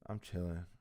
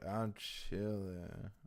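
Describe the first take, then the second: First: It is said in a mild, low-key way. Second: It is said in an intense, exaggerated way.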